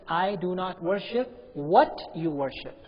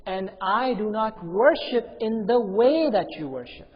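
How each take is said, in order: First: Slow, with "what" leaned on; stress on WHAT. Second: Slow and louder, "way" drawn out; stress on WAY. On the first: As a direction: make "what" the contrasting word. Contrasting object with way of worship. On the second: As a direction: make "way" the contrasting word. Contrasting way with object of worship. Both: Shown as a demonstration.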